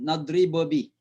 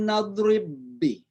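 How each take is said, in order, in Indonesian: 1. Ada vokal tambahan yang memisahkan dua bunyi b. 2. Dua bunyi b menyatu jadi satu b ganda. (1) "Jadi bukan nadribobi" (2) "ba mati ketemu dengan ba itu kayak syadda saja"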